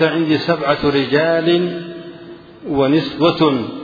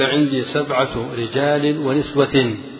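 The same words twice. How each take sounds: First: The last word ends with an -un sound. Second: The last word ends with an -in sound. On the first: Seven counts only the men; the women are uncounted. "كانت السبعة للرجال والنساء مسكوت عن عددهن" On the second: Seven is the total of men and women together. "فالمجموع سبعة"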